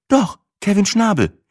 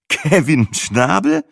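First: Put-on high, casual girlfriend voice; Sina's voice. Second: Slow, doubting repeat of the name; incredulous. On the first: Sina answering her boyfriend, high casual voice. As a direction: toss the name off lightly. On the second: Boyfriend repeating an absurd name, slow and incredulous. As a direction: drag it out in disbelief. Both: A narrator's reading.

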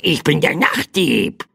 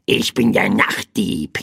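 First: Higher-pitched raspy crow squawk; croaking bird. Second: Raspy little crow squawk; croaking bird. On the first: Night thief bird repeats its name to the boy, higher croak. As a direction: croak it higher, like a small bird announcing itself. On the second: Night thief bird introduces itself to the boy, croaking. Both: A narrator's reading. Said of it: "krächzte das kleine Federvieh".

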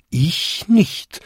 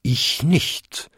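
First: High-pitched bell-like denial; chiming smaller bells. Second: Second-biggest bell bonging a denial; bong it out as a large bell; bonging big bell. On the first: Next five bells answer in turn, chiming high. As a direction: chime it out high, like little bells. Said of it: "bampten und bimmten die nächsten fünf Glocken". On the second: Second-biggest bell answers the biggest, bonging denial. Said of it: "bummte die zweitgrößte". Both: A narrator's reading.

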